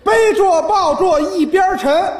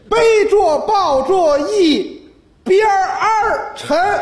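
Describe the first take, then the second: First: The word 边 has no r-coloured ending. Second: The word 边 ends with an r-coloured sound. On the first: "这还是七个" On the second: "儿化音懂吗？"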